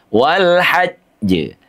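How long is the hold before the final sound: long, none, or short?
short. There is a brief hold before the final sound. The speaker calls it right. "dijeda dulu"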